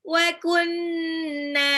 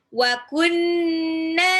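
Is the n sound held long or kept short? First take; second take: held long; held long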